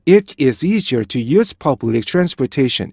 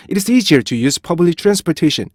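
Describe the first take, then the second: First: Deliberate model sentence, break after 'It'; bouncy, measured start on 'It / is easier'; rhythmic separated reading. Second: 'It is' squeezed together; higher, hurried linked reading with no break after 'It'; compressed start on 'It is easier'; reduced rhythm. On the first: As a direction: shake the beat at 'It', then 'is easier'. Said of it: "리듬을 탁 한번 흔들어 줘야". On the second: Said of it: "이렇게 못 가요". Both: Shown as a demonstration.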